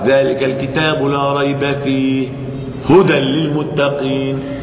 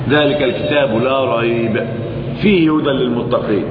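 First: The pause falls after the word fihi. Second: The pause falls before the word fihi. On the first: There is no doubt about anything in the Book. "وإن قل ذلك الكتاب لا ريب فيه" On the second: The guidance is said to lie inside the Book. "فإذا قل ذلك الكتاب لا ريب فقل فيه هدى للمتقين"

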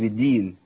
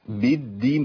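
First: The d sound is short and single. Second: The d sound is held and doubled. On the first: The speaker calls it wrong. "ما قلتش بالدين" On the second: The speaker calls it right. "برضه شدد"

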